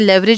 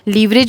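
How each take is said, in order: First: The word is said the American way. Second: The word is said in a non-American way. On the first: "लेवरेज America" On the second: "लीवरेज भी हम कह सकते हैं"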